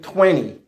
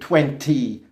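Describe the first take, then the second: First: The middle T sound is dropped. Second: The middle T sound is clearly pronounced. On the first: This is how Canadians and Americans usually say it. "we say normally twenty" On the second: This is how British speakers might say it. "in British English and elsewhere, they might say twenty"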